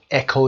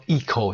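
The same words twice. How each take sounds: First: اکو said "eh-ko" with short e; short e echo. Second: ایکو said "ee-ko" with long ee; long ee eco. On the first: (اکو با «اِ» کوتاه، «اِکو») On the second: (ایکو با «ای» کشیده، «ایکو») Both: Shown as a demonstration.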